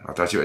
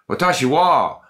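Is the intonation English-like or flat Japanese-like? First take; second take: Japanese-like; English-like. First: It has flat, monotonous Japanese intonation. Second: It has lively English-style intonation.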